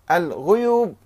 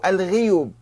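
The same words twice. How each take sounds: First: الغيوب said al-ghuyub; الغيوب starting "ghu"; with damma. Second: الغيوب said al-ghiyub; الغيوب starting "ghi"; with kasra. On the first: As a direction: round the first vowel of الغيوب to u. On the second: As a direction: spread the first vowel of الغيوب to i. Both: Shown as a demonstration. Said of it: "بالضم والكسر".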